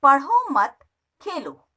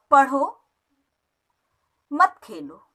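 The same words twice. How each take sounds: First: पढ़ो मत run together, a break, then Khelo; pause after मत. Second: पढ़ो on its own, a clear break, then मत खेलो together; pause after पढ़ो. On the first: Teacher reads the sentence meaning stop studying and play, pause after मत. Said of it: "पढ़ना बंद करके". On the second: Teacher reads the sentence meaning study and don't play, pause after पढ़ो. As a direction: stop after पढ़ो, then say मत खेलो as one falling phrase. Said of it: "खेलना बंद करके". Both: Shown as a demonstration.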